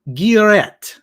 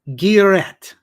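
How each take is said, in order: The two takes are said the same way.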